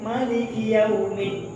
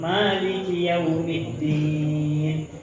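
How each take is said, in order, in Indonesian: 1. Vokal setelah m dibaca pendek. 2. Vokal setelah m dibaca panjang. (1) "boleh membaca pendek" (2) "mimnya dipanjangin"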